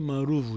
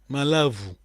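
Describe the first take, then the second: First: The second syllable starts with an R sound. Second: The second syllable starts with an L sound. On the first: This is the Portuguese form of the word. "o português pronuncia maruvo" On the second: This is the local Kikongo form of the word. "Se diz em, em Kikongo?"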